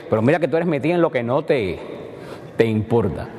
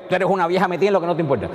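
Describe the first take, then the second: First: Knowing, friendly tease; teasing a close friend who already knows the answer; playful teasing. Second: Higher, fast, scornful jab; scolding a nosy old woman with contempt; rude insult. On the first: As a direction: rib a close friend with a wink. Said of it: "diálogo entre dos personas que tienen confianza". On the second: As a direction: snap it as a real insult. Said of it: "la entonación es lo que hace". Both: Shown as a demonstration.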